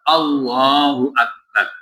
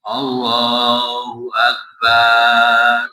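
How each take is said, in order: First: The vowels in Akbar are kept short. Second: A vowel in Akbar is drawn out long. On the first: It means that God is great. The speaker calls it right. "yang betul apa?" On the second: It turns the meaning into a drum. The speaker calls it wrong. "Kalau dipanjangkan, Allah itu seperti beduk"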